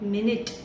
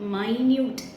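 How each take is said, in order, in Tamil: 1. முதல் அசை 'min' மாதிரி ஒலிக்கும், முடிவு 'it'. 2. முதல் அசை 'my' மாதிரி ஒலிக்கும், முடிவு 'yoot'. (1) "எம்ஐஎன்யூடிஇ மினிட் அப்படின்னு சொல்லலாம்" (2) "எம்ஐஎன்யூடிஇ மைன்யூட் அப்படின்னு சொல்லலாம்"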